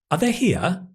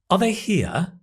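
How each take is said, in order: First: 'Are' is a weak schwa and unstressed. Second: The same.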